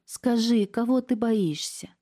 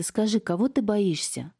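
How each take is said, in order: First: Higher, slower, close to tears; tearful plea. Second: Gently. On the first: Niece near tears begging her aunt, tearful plea. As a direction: ask through rising tears. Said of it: "Настя заплакала". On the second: Niece coaxing her scared aunt, gently asking. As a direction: ask her kindly, as to a frightened child. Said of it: "ласково продолжала девушка". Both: A narrator's reading.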